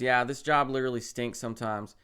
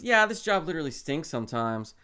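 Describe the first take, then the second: First: It is said in the speaker's ordinary voice. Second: It is said in an imitated, put-on voice. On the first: The speaker calls it wrong. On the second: The speaker calls it right.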